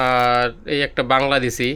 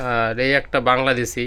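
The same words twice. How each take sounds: The two takes are said the same way.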